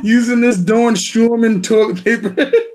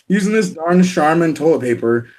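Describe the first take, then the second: First: The brand name is said in a heavy accent. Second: The brand name is said in a plain accent.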